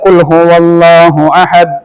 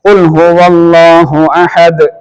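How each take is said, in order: First: The final d is not released clearly. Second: The final d is released clearly with a bounce. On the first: The speaker calls it wrong. "അങ്ങനെ പറഞ്ഞാൽ നമ്മുടെ ഓത്ത് ശരിയാവുകയില്ല" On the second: The speaker calls it right. "അഹദ് അങ്ങനെ തന്നെ ദ് എന്ന് പറയണം"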